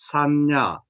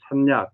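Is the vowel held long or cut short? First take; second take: long; short. First: The vowel is held long. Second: The vowel is cut short. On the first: The speaker calls it right. "이렇게 해야 되지" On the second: The speaker calls it wrong. "이건 틀리는 거예요. 또 다른 뜻이 되는 겁니다"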